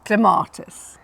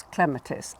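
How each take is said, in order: First: "clematis" with the stress on MAR; cle-MAR-tis stressed second. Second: Quiet "clematis" with the stress on CLEM; CLEM-atis stressed first. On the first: Teacher giving the form to avoid: cle-MAR-tis. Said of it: "as opposed to". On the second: Teacher explaining the stress rule: CLEM-a-tis. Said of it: "the stress is on the first syllable". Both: Shown as a demonstration.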